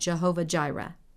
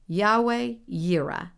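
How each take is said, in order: First: Both words begin with a J sound. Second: Both words begin with a Y sound. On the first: The speaker calls it wrong. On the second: The speaker calls it right.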